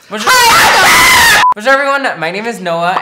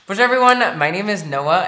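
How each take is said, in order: First: It is said in a more uppity tone. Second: It is said in a plain, ordinary tone.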